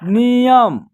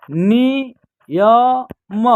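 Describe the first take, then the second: First: नियम joined up as one word; blended word. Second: नियम broken into नि, य, म with pauses; syllable by syllable. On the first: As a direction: say नियम whole, without gaps between syllables. Teacher then blends the syllables. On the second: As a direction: sound out नियम very slowly, piece by piece. Teacher sounds out word by syllables. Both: Shown as a demonstration.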